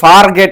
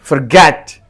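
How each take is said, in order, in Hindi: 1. पहला अक्षर पूरा बोला जाता है, जैसे 'far'। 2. पहला अक्षर छोटा और कमज़ोर होता है। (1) "इहो फार गेट न आहे" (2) "फर खे चई"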